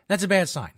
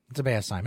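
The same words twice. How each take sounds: First: Bad said high and loud; that's a BAD sign, punched; stressed. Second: Said in the usual way. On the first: Shown as a demonstration. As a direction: lean hard on bad.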